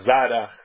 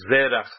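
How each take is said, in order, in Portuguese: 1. A primeira vogal é som de 'a'. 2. A primeira vogal é som de 'e'.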